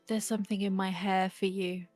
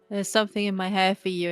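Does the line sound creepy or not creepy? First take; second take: creepy; not creepy. First: The line is delivered in a creepy way. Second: The line is delivered in a non-creepy way. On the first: The speaker calls it wrong. "I'm aware that that sounded really creepy" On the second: The speaker calls it right. "I'm gonna try and say it as not creepily as possible"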